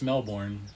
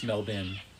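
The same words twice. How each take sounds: First: It is said with the American pronunciation. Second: It is said with the Australian pronunciation. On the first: It names the city in Florida. "in Florida, it's Melbourne" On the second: It names the city in Australia. "In Australia, it's Melbourne"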